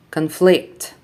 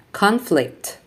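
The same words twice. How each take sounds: First: ConFLICT, stressed on the second syllable; verb stress. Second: CONflict, stressed on the first syllable; noun stress. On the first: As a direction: reduce con, land on FLICT in conflict. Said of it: "verbs are stressed on the second syllable". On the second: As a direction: hit CON in Conflict, then fall. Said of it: "nouns are stressed on the first syllable". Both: Shown as a demonstration.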